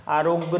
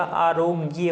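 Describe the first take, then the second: First: आरोग्य clipped short as "arog", with no final "ya"; wrong pronunciation. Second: आरोग्य slowly as "aa-ro-gya", with a long first "aa" and a full "gya" ending; correct pronunciation. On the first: Teacher shows the class the wrong form, clipped "arog". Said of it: "आरोग्य नहीं होता". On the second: Teacher gives students the correct form, slow and careful. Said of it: "आरोग्य होता है". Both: Shown as a demonstration.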